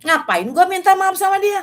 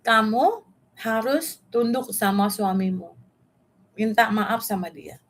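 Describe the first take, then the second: First: High, loud mock-indignant protest; indignant inner retort. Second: Measured, slow-paced command; God's instruction. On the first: Her own thought on being told to apologise to husband, indignant and high. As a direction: balk loudly at the very idea. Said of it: "Di pikiran saya gini". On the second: Retold or imitated. God tells [name] to submit to her husband, slow and measured. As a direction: deliver it as an even, deliberate instruction. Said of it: "Ngomong sama aku satu hal".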